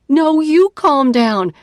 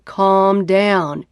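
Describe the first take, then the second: First: Higher, louder, slower snapped retort; angry retort. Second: Said in the usual way. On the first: Acted. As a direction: throw the words back at him. Retort to calm down.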